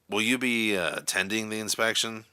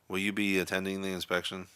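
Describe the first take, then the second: First: The question sounds angry and irritated. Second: The question sounds bored and disinterested. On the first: "in an angry, irritated tone of voice" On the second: "a bored, disinterested tone"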